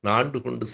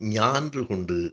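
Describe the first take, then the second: First: The first word begins with a plain 'n' sound. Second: The first word begins with a palatal 'ny' sound. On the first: This is the everyday village form of the word. The speaker calls it wrong. "அது திரிந்து ஒலிக்கிறது" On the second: This is the original literary form of the word. The speaker calls it right. "சரியாக சொல்ல வேண்டுமென்றால்"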